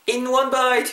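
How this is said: The stress falls on the word in. The speaker calls it wrong. "전치사 부분에 강세를 죽이시고 in one bite 이렇게 하지 마시고"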